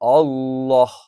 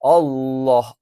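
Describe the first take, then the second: Both takes have the same delivery.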